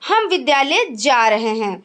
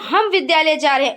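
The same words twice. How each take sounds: First: No word carries special stress. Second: The stress is on the word हम. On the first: "जैसे सामान्य" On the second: "हम पर बल"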